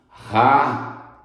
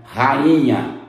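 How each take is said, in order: First: "Rainha" broken into ra-i-nha with pauses; hiatus split. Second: Said in the usual way. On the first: Shown as a demonstration. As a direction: separate the A and the I in "Rainha", syllable by syllable. ("Rainha" separado em sílabas, ra-i-nha) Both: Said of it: "Isso é hiato".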